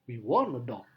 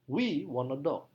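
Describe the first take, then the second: First: The strongest stress falls on want. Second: The strongest stress falls on we. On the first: It answers what about a dog. "Maka penekanannya pada kata want" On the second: It answers who wants a dog. "Penekanan paling kuat pada kata we"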